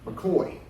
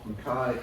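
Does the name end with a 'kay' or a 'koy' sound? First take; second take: koy; kay. First: The name ends with a 'koy' sound. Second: The name ends with a 'kay' sound.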